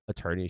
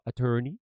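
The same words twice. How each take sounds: First: The word is said in a plain accent. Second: The word is said in a marked accent. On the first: "instead of saying like attorney" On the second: "her accent would come in and out. she would go attorney"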